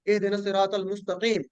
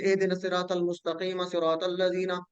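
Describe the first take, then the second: First: मुस्तकीम closed on a bare "m"; stopping form. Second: मुस्तकीम voiced as "mustaqeema", running straight into सिरातल; joined recitation. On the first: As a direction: stop on मुस्तकीम with no vowel after the m. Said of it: "अगर आप रुक जाते हैं". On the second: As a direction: link मुस्तकीम to सिरातल with an added "a". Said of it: "आगे मिला के पढ़ेंगे". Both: Shown as a demonstration.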